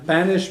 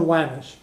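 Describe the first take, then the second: First: The word begins with a B sound. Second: The word begins with a W sound. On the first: "banish is a wedding" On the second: "a feminine noun gets aspirated"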